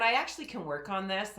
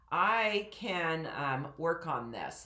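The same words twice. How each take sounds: First: Said in the usual way. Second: Slower, grounded diaphragm delivery; speaking from diaphragm. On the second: Shown as a demonstration. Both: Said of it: "that's speaking from my diaphragm more".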